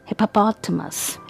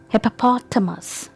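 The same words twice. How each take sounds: Both takes have the same delivery.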